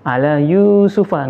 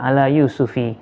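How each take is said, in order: First: The name ends in an 'a' vowel. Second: The name ends in an 'i' vowel. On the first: The speaker calls it right. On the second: The speaker calls it wrong. "nggak boleh"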